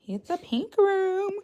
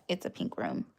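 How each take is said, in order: First: Much higher, slow and cutesy; slow high cutesy announcement; high sing-song. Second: Breathy whispered aside; soft whispered pink room. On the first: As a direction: stretch it out high and sweet. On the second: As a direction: whisper it like a secret. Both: Shown as a demonstration. Showing her room on stream.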